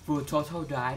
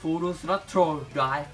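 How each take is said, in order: First: It is spoken with a plain English accent. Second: It is spoken with a Japanese accent. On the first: "ถ้าอ่านเป็นภาษาอังกฤษบ้านๆเนี่ยก็" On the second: "ก็สำเนียงญี่ปุ่นนะฮะ"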